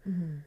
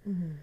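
The two takes are said the same way.

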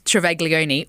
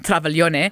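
First: The name is said with English-style pronunciation. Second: The name is said with Italian-style pronunciation. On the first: This is the everyday local pronunciation. "So my name's Travaglione" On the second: This is the original pronunciation. "or in Italian"

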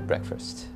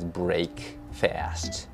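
First: Said as one blended word with reduced vowels. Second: Said as two separate full words, break and fast. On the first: The speaker calls it right. "but it's actually breakfast" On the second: The speaker calls it wrong. "I used to think breakfast is break fast. how it's spelled"

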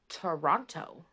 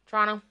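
First: It is said the way non-Canadians say it. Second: It is said the way Canadians say it.

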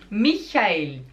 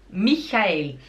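No difference in how they are said.

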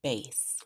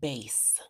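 First: The vowel is the long A sound. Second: The vowel is the long A sound.

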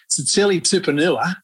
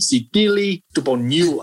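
First: The T sounds are said as plain hard T. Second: The T sounds are softened toward a D. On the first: The speaker calls it wrong. "incorrectly, is pronounced as" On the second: The speaker calls it right. "this is how you do say his name"

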